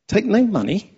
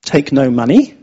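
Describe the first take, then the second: First: High, soft disbelieving question; incredulous echo. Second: Said in the usual way. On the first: Shown as a demonstration. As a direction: repeat it back in mock disbelief.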